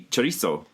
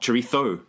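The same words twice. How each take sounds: First: The middle consonant is an s sound. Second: The middle consonant is a th sound. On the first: This is how it is said in South America. "You say chorizo" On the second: This is how it is said in Spain. "not chorizo in South America"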